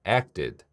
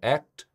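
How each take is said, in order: First: The ending is an extra id syllable. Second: The ending is a bare extra t sound. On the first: The speaker calls it right. "id로 발음합니다" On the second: The speaker calls it wrong. "무성음인데 과거형 ed를 붙였다고 또 이것도 t, t로 발음하면 이상하죠"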